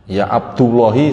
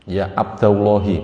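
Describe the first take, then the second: First: The vowel after Abd is u. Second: The vowel after Abd is a. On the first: The speaker calls it wrong. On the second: The speaker calls it right.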